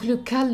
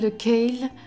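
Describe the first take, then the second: First: Kale is said with a French-style vowel, like 'cal'. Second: Kale is said with an English-style vowel, like 'kayl'.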